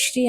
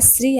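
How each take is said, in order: First: శ్రీ with a sh sound; correct sibilant. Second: శ్రీ with a plain hissing s; wrong sibilant. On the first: Teacher gives the right form, శ్రీ said with sh. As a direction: say శ్రీ as "shree", sh before the r. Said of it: "శ్రీ అని పలకాలి". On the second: Teacher shows the mistake to avoid, శ్రీ said with plain s. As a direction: say శ్రీ as "sree", with s not sh. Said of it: "శ్రీ అని పలకూడదు". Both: Shown as a demonstration.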